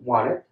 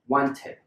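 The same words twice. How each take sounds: First: The middle T sound is left out. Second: The middle T sound is clearly pronounced.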